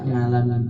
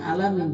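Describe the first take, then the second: First: The word starts with an 'ng' sound. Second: The word starts with a plain vowel sound. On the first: This is how Sundanese speakers read it. "tapi dibaca ngalamin" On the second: This is the intended pronunciation. "Maksudnya alamin"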